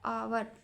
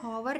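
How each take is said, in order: First: The initial h sound is silent. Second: The initial h sound is pronounced. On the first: The speaker calls it right. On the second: The speaker calls it wrong.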